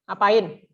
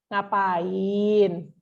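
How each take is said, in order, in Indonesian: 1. Nada turun, tanda kalimatnya sudah selesai. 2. Nada tetap naik, seperti masih ada kelanjutannya.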